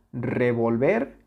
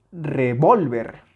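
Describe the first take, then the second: First: Revolver with the final syllable stressed; stress on VER. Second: Revólver with a strong, long second syllable; stress on VOL. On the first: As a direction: land revolver on VER, leaving VOL light. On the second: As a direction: punch VOL in revólver, let VER fall. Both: Shown as a demonstration. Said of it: "No es lo mismo".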